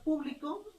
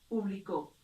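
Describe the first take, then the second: First: The stress is on the last syllable. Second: The stress is on the first syllable. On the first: "encontramos la tilde en la última sílaba" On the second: "en este caso en la antepenúltima sílaba"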